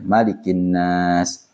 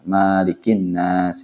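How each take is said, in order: First: The vowel after the m is kept short. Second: The vowel after the m is drawn out long. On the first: The speaker calls it right. "maknya dibaca pendek saja" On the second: The speaker calls it wrong. "Kadang-kadang ada yang membaca Malikin Nas"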